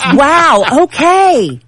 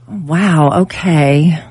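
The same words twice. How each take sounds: First: It sounds warm and supportive. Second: It sounds let down and disappointed.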